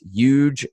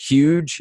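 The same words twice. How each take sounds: First: The word starts with no H sound. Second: The word starts with a clear H sound. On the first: "H's don't really exist" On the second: "it's not ... huge"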